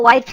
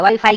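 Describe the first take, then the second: First: वाइफ said as wife, two syllables vai-f. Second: वाईफाई said as wi-fi, both syllables long; wifi said slowly. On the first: Billa corrects the officer: वाइफ as wife. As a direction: say वाइफ as the English word wife. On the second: Billa corrects the officer: वाईफाई as wi-fi. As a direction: spell out वाईफाई as wi-fi. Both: Shown as a demonstration. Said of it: "वाईफाई की बात कर रहा है".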